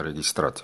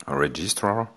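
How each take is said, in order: First: "registrat" said the Russian way; Russian pronunciation. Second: English word with a French accent. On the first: Shown as a demonstration. Lecturer offers the term in Russian too, Russian accent. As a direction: switch to a Russian accent for the word. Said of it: "je peux vous le faire en russe". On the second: Real, not acted. Lecturer gives the English term, apologising for the accent, French-accented English. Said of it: "désolé pour mon accent".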